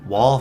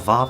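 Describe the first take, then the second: First: The word starts with a W sound. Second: The word starts with a V sound.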